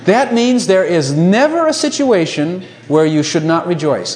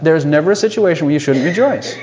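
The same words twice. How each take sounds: First: Slow, every word weighed, the line drawn out to its end; slow emphatic statement. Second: Said in the usual way. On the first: Shown as a demonstration. Preacher to congregation, slow, deliberate emphasis. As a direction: lean on "never a situation" slowly and let "rejoice" fall. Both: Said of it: "Think about that".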